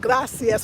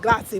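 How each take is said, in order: First: The final s sound is clearly pronounced. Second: The final s sound is dropped. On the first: "with the S" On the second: "they don't say the S's"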